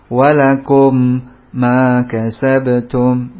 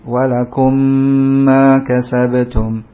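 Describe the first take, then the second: First: The doubled consonant is pronounced twice, separately. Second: The doubled consonant is merged into one sound. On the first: The speaker calls it wrong. "Ini dua kali namanya" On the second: The speaker calls it right. "Tapi satu kali"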